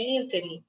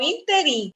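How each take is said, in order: First: The stress falls on the first syllable. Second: The stress falls on a later syllable. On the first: The speaker calls it right. "é proparoxítona" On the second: The speaker calls it wrong. "As pessoas falam interim"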